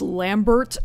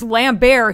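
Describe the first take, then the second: First: The name ends with a pronounced t sound. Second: The name ends in a French-style vowel sound. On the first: The speaker calls it wrong. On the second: The speaker calls it right.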